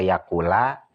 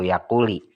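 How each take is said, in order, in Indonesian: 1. Kata ini berakhir dengan vokal a. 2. Kata ini berakhir dengan vokal i. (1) "Tidak benar" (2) "Tidak benar"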